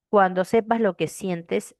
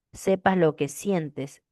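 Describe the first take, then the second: First: Said in the usual way. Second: "Sepas lo que sientes" drawn out slowly to show the vowels; slow it down to show the vowel groups in "sientes"; slow syllable demo. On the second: Shown as a demonstration. ("Sepas lo que sientes" dicho despacio, marcando las vocales) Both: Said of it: "Hay tres diptongo, cuando es uno".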